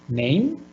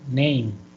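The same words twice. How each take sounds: First: The voice rises on the word. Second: The voice falls on the word. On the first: The speaker calls it wrong. "no es name" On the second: The speaker calls it right. "sino al contrario es name, va bajando"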